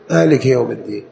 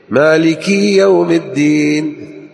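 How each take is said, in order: First: The vowel after the k is short. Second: The vowel after the k is long. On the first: There is one owner of the Day of Judgement. The speaker calls it right. "بالكسر ليس بالياء" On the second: It sounds as if there are two owners. The speaker calls it wrong. "بعض الناس يتحمس لدرجة كنا مثنى"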